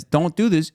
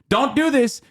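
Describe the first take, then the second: First: Said in the usual way. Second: Much higher mock scold; mock scolding quote. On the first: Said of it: "every time Biden says". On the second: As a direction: pitch it way up, mocking the warning. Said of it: "'Cause America says".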